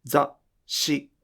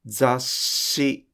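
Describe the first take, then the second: First: 雑誌 with the breath stopped dead before the sh; 雑誌 with a silent glottal stop instead of a held sh; wrong model. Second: 雑誌 with the small つ held as a continuous sh; 雑誌 said right, the sh never breaks; correct model. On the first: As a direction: choke off the air in 雑誌 as the mistake. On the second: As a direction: keep the sh in 雑誌 flowing without a stop. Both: Shown as a demonstration. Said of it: "途中で息を止めないでください".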